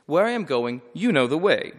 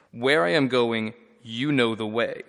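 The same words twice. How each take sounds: First: Brisk, matter-of-fact, a bit louder; offhand, knowing read. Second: Said in the usual way. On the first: Shown as a demonstration. Teacher reads Jesus casually, as if obvious. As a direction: toss it off like the answer is obvious. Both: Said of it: "we just usually read that and the next line in the same voice".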